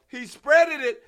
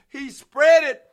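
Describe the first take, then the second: No difference in how they are said.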